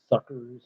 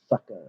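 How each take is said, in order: First: "Suckers" with a clear r at the end; r pronounced. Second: "suckers" said as "suckas"; r dropped. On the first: Songwriter testing a lyric, "Suckers" with the r sounded. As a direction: say "Suckers" ending in -erz. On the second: Songwriter testing a lyric, "suckers" said as "suckas". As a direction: end "suckers" on an open -ah, no r. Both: Shown as a demonstration. Weighing two pronunciations of lyric.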